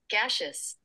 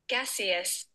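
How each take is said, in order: First: It is said with an American pronunciation. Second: It is said with a British pronunciation. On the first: "This is American" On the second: "This is the British"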